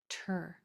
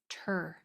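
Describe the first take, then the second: First: The sound begins with a clear 't'. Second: The sound begins with a clear 't'.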